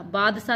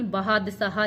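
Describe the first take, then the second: First: बादशाह as two-beat "baad-sa"; wrong form. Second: बहादशाह with added h, "bahaad-saha"; corrected form. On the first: Teacher rejecting one spelling, बादशाह as "baadsa". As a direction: say बादशाह without any middle h. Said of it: "बादशाह नहीं". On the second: Teacher offering the correction, बहादशाह as "bahaad-saha". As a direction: say बहादशाह with both h sounds. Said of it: "बहादशाह लिखा जाता है". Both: Shown as a demonstration.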